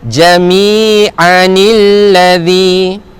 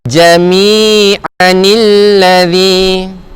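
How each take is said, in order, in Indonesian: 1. Vokal 'i' menyambung kedua kata ini. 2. Vokal 'i' menyambung kedua kata ini.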